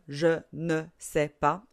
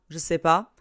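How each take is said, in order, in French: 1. Le 'ne' est bien prononcé. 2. Le 'ne' est complètement supprimé. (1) "au lieu de je ne sais pas" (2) "à l'oral, on a tendance à ne pas dire le N apostrophe ou ne"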